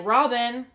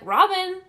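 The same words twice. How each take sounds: First: Re-enacted call to someone, slightly raised; louder name call, testing for an answer. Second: High, loud re-enacted call; raised, higher call for someone who isn't answering; calling out louder. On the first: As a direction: call a name across the house, moderately. First call out to housemate. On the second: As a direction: shout the name to reach another room. Calls again after no answer.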